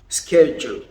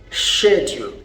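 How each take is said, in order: First: It is said in an American accent. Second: It is said in a British accent. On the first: "The Americans say schedule" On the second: "But the British people say schedule"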